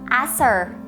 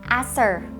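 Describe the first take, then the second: No difference in how they are said.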